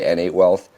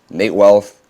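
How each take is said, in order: First: The name begins with 'N' then 'eight'. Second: The name begins with the single syllable 'Nate'. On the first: The speaker calls it wrong. "a lot of people mispronounce it and say" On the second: The speaker calls it right. "I'm known on YouTube as"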